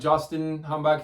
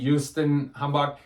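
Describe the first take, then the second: First: The name is said with American pronunciation. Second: The name is said with German pronunciation. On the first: "It looks like Justin Hambach if you're if you're American" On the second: "but he pronounces it Justin Hambach"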